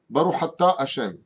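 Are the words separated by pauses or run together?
run together. The words are run together without pauses. The speaker calls it wrong. "ils relient un peu trop les mots"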